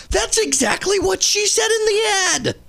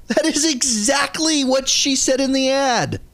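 First: Much higher, incredulous "That's exactly what she said in the ad"; high-pitched, disbelieving comeback; exasperated retort. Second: "That is exactly" with "is" punched, pitched high; high, emphatic "is" in the repeated retort; stress on IS. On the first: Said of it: "exasperated retort to a commenter". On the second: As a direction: lean hard on "is" in "That is exactly what she said in the ad". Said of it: "repeats the retort, now stressing "is". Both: Real, not acted.

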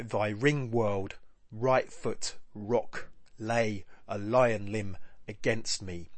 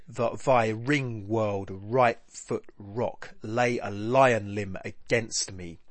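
First: Measured stresses with gaps after world, rock and lay; separated stressed words. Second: Ring, world, right, foot, rock all stressed; slow, weighty verse with crowded stresses; heavy stresses throughout. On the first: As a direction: ring world, right foot, rock set apart by pauses. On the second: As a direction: read the line slowly, leaning on each stressed word. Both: Shown as a demonstration. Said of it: "Lots of stressed syllables nudging against".

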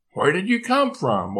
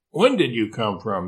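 First: Higher-pitched question, COME lifted then falling; puzzled, voice rising high then dropping on FROM; surprised question. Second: WHEN picked out as the correction; self-correcting question, weight on WHEN; stress on WHEN. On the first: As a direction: ask with a high swoop on COME. Question corrected from where to when. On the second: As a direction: lean on WHEN, the rest at usual pitch. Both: Acted.

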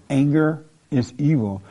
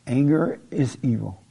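Both takes have the same delivery.

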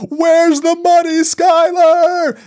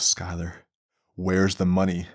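First: Full-throated scream, much higher and louder. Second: Said in the usual way. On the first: Retold or imitated. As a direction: scream it at the wife in desperate rage. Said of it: "he's under the house screaming". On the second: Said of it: "he goes".

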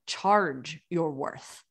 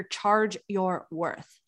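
First: Said in the usual way. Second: A coach quoting the slogan everyone repeats. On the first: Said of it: "I did not say charge your worth". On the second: Retold or imitated. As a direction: Charge your worth, slow and deliberate, each word set apart. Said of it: "You'll hear".

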